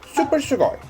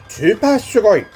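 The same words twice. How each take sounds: First: Super is said with an English accent. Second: Super is said with a Japanese accent.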